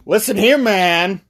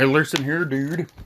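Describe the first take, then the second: First: High, lightly voiced questioner; eager guy voice. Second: Mysterious dude. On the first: Guy at the bar asks about spooky business, high voice. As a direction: pitch it up to get the stranger's attention. Guy approaches the mysterious dude. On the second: Retold or imitated. Mysterious drinker answers the guy, understated cryptic voice. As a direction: keep it subdued and secretive. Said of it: "He's like this super mysterious dude".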